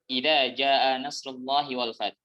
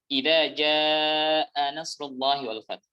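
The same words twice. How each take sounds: First: The phrase is recited quickly and rushed. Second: The phrase is recited at an unhurried pace.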